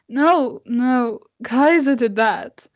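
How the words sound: It is said in Bowen's character voice.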